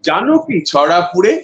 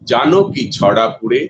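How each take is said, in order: First: The line is spoken at a high pitch level. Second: The line is spoken at a low pitch level. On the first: "লিপটাম three" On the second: "এটা আমার লিপটাম one"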